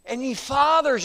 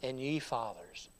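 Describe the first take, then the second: First: FATHERS punched high and loud; stress on FATHERS. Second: Said in the usual way. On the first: Shown as a demonstration. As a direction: hammer the word fathers with emphasis. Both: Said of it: "you see the emphasis here".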